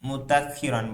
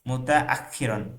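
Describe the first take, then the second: First: The syllables run together with no glottal catch. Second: A glottal catch separates 'muta' from 'akhiran'. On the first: The speaker calls it wrong. "মুতা মুতাখিরন বলেন আপনি, ... হামজাটা পুরো বাদ দিয়ে দেন।" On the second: The speaker calls it right. "মুতা বলবেন ভিন্ন, এরপর আখিরন বলবেন ভিন্ন।"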